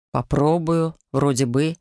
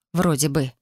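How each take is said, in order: First: Measured, lowering echo of doubtful words; deliberate, lightly voiced male echo; slow repetition. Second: Said in the usual way. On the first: A narrator's reading. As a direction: repeat it slowly, dropping low at the end. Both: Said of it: "медленно повторил Гейл".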